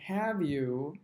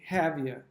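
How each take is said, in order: First: The two words are said separately and fully. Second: The two words are run together and reduced. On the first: "instead of saying" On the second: "we would say"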